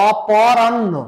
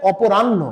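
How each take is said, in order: First: অপরাহ্ন with open "paw", "o-paw-ranno"; modern-dictionary অপরাহ্ন, open second vowel; without o-kar. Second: অপরাহ্ন with closed "po", "o-po-ranno"; older-style অপরাহ্ন with o after p; older dictionary pronunciation. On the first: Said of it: "ওকার ছাড়াও আমরা উচ্চারণ দেখতে পাবো". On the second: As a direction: round the প of অপরাহ্ন to "po". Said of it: "আগের অভিধানে হচ্ছে অপরাহ্ন". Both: Shown as a demonstration.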